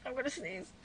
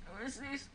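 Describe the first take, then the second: First: About to sneeze. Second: Hushed, sneeze coming on; about to sneeze. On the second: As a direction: hold back a sneeze, very soft. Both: Real, not acted.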